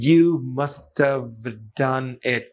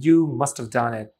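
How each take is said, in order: First: Each word is said fully and separately. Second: The words run together with 'have' reduced.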